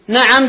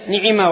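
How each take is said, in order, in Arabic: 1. كلتا الحركتين فتحة a. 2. كلتا الحركتين i. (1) "بفتح العين" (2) "بكسرتين"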